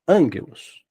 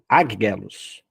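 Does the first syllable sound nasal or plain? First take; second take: nasal; plain. First: The first syllable has an n sound. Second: The first syllable has no n sound. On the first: The speaker calls it right. "é ângelos" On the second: The speaker calls it wrong. "não é águelos"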